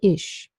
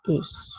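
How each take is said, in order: First: The final consonant sounds like sh. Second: The final consonant is a palatal ch hiss. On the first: This is a regional pronunciation. "some people in this region where I live say ich, where they have a sound like sheep" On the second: This is the standard pronunciation. "But Standard German says ich"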